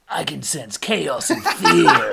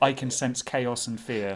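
First: It is said in a Sonic voice. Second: It is said in a normal voice.

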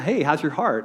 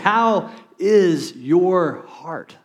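First: It is asked in a quick, casual, offhand way. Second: It is asked slowly, in a sincere, caring way.

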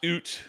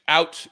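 First: The word is said with a Canadian vowel. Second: The word is said with an American vowel.

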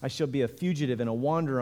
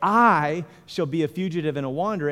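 First: It is read plainly, without added emphasis. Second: It is read with strong added emphasis.

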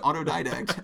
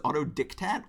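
First: The middle syllable sounds like 'did'. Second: The middle syllable sounds like 'dict'. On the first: The speaker calls it right. "the word is autodidact" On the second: The speaker calls it wrong. "I thought it was autodictat, like you were dictating to yourself"

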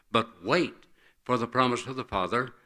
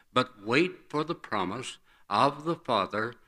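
No difference in how they are said.

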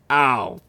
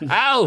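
First: It is said in the reader's ordinary voice. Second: It is said in a put-on character voice. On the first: The speaker calls it wrong. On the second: The speaker calls it right.

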